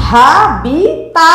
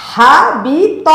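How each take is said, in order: First: হাবিতা with a long final আ; wrong long a. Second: হাবিত slowly, final ত short; right short ending. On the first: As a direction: slowly stretch the final তা. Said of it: "বলা যাবে না". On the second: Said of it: "বলতে হবে". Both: Shown as a demonstration.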